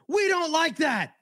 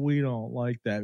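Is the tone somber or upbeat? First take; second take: upbeat; somber. First: It is said in an upbeat catchphrase way. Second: It is said somberly, like Eeyore.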